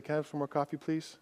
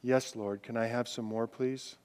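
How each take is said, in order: First: Much softer, a small polite request; humble quiet ask. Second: Lower, much softer plea; humble quiet ask. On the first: Retold or imitated. Preacher voicing a diner asking for a refill, quietly. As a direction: ask meekly, almost under your breath. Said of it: "pick up your cup and say". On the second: Pretend. Preacher voicing the worshipper's humble plea, softly. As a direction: ask God gently, almost whispered. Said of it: "The attitude of saying".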